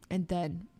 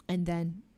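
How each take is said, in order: Both takes have the same delivery.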